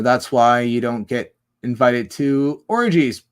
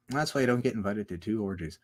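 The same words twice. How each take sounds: First: Loud, drawn-out emphatic delivery; slow it down and land hard on orgies. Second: Lower, softer repeat; low and understated; toned down. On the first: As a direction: say it big and slow. Repeats the line in two ways. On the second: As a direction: drop the voice and say it quietly. Same line repeated, toned down. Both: Real, not acted.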